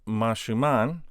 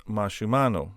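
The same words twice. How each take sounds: First: "Mashuman" ending on n, no o; base plural form. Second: "Mashumano" with "oh" after the n; o added at end. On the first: Teacher giving the form before second inflection, plain-ended "Mashuman". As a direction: say "Mashuman" closed on the final n. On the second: Teacher showing the second inflection, o-ended "Mashumano". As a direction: finish "Mashumano" on an o sound. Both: Shown as a demonstration. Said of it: "we just add a o".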